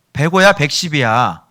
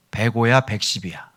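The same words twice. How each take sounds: First: Loud, slow, drawn-out question; acted impatient repeat; insistent asking. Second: Said in the usual way. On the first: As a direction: demand an answer, stretching it out. Size question repeated, now insistently.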